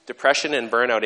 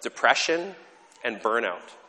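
First: Depression said louder, leaning on it; stress on Depression. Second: Said in the usual way. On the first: Real, not acted. Preacher repeats "Depression and burnout" with emphasis. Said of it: "repeated with emphasis". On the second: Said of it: "listing two phenomena".

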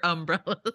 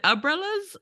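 First: "umbrellas" with the m sounded, um-brellas; pronunciation check. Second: "umbrellas" said without the m, as uh-brellas; pronunciation check. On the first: Host checking how to say "umbrellas", said as um-brellas. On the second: Host checking how to say "umbrellas", said as uh-brellas. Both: Shown as a demonstration. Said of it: "Is it umbrellas or umbrellas?".

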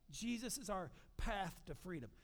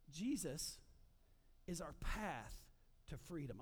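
First: Said in the usual way. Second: Each piece set apart by long pauses, falling low and soft on freedom; slow emphatic phrasing. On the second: Shown as a demonstration. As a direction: lay out Jesus, is our path, to freedom as separate beats. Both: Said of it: "I want you to get that before we move on".

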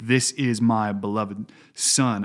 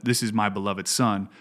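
First: Slow, weighty stress on "This" in "This is my beloved Son"; emphatic quote. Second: Said in the usual way. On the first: Shown as a demonstration. Pastor showing co-hosts God's emphatic words, slow stress on "This". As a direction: lean on "This", each word slow and deliberate. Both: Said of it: "it's emphatic when God says".

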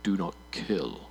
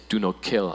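First: Slow, low, grave voice of God; solemn divine gravitas. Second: Said in the usual way. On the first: Acted. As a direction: boom it out like God. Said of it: "I just want to add that gravitas". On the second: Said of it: "change my voice to sound more like God".

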